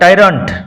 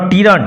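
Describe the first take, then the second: First: The first syllable sounds like 'tie'. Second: The first syllable sounds like 'tee'. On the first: The speaker calls it right. "But টাইরান্ট" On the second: The speaker calls it wrong. "Not টিরান্ট"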